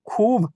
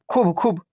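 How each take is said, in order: First: खूब with a long oo; drawn-out vowel. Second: खूब said short, "khub"; not drawn out. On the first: Teacher corrects the short reading, खूब drawn out. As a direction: stretch खूब out, khoob. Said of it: "खींच कर पढ़ रहे हैं". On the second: Teacher repeats the mistaken reading, खूब cut short. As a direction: keep the oo in खूब brief. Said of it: "नहीं, खूब". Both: Shown as a demonstration.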